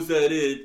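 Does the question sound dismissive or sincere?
dismissive. It is asked in a scornful, unimpressed tone. The speaker finds the idea unimpressive. The speaker calls it wrong. "I don't mean like, oh"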